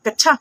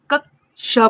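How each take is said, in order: First: कच्छा with a "chchh" in place of "ksh"; questioning wrong reading, कच्छा with rising end; wrong pronunciation. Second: कक्षा slowly split as "कक्-शा"; a clear k then sh in कक्षा, drawn out; correct pronunciation. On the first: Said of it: "या फिर इसको कच्छा पढ़ते हैं". (सवाल के लहजे में "च्छ" वाला कच्छा) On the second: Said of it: "हम इसको पढ़ते हैं बिल्कुल सही". (कक्षा को धीरे, "क्-श" साफ़ करके बोलें) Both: Shown as a demonstration.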